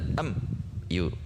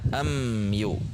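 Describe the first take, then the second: First: A short break separates am from yu. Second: The m joins smoothly into yu. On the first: The speaker calls it wrong. "tidak terjeda, tidak am yu" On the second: The speaker calls it right. "sehingga dibaca am yu"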